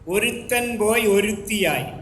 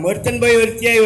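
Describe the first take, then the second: First: It is said very slowly. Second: It is said quickly without stopping. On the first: "വളരെ സ്ലോവിൽ പറയാം" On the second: "ആ വാചകം നിർത്താതെ പറയണം"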